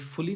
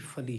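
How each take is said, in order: First: The suffix has a full 'oo' vowel. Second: The suffix has a short reduced 'uh' vowel. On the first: The speaker calls it wrong. "ये फुली नहीं है" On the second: The speaker calls it right. "बल्कि फली है"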